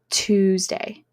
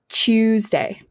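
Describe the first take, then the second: First: The word begins with a t sound. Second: The word begins with a ch sound. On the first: "instead of Tuesday" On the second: "they will sound like Tuesday"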